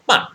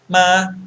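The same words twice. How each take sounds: First: It is said with the fourth tone. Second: It is said with the first tone.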